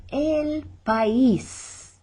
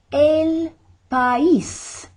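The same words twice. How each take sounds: First: El país slow with pa-ÍS split; stress on ÍS. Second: El país much higher and louder, landing hard on ís; stress on ÍS. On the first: Teacher demonstrates the stressed ís in país, slowly. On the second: Teacher shows students the accent in país, loud and high. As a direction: split país into pa-ÍS and punch it. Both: Shown as a demonstration. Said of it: "accent mark to make us say".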